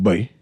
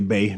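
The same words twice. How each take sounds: First: It is said with a 'w' glide, like 'bway'. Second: It is said as plain 'bay', no w-glide. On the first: This is how an older generation says it. "I actually pronounce the U in it" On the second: This is how the younger generation says it. "they say Bay now because that's how they pronounce the word"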